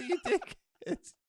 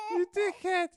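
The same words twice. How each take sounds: First: Laughing insult. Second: Louder insult. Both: Acted. Insulting partner mid-scene.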